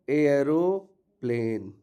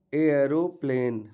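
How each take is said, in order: First: एयरोप्लेन said slowly, एयर drawn out; slow model word. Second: Said in the usual way. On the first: Shown as a demonstration. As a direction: spell out एयरोप्लेन slowly, each sound clear. (एयरोप्लेन धीरे-धीरे साफ़ उच्चारण)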